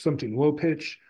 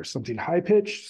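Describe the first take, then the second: First: "low pitch" dropped back down. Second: "high pitch" lifted upward. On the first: Lecturer contrasting relative pitches, voice lowered on "low pitch". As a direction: let the voice fall on "low pitch" to illustrate it. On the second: Lecturer contrasting relative pitches, voice raised on "high pitch". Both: Shown as a demonstration.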